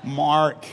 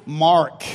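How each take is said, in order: First: Australian Mark, the vowel drawn out; Australian accent. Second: The name Mark said the American way, with a hard r; American accent. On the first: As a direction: Mark said the Aussie way as "Mahk", with no r and a long open a. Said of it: "Say it like an Aussie". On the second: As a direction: Mark with a clear American r, to be corrected. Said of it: "None of this Mark". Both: Shown as a demonstration.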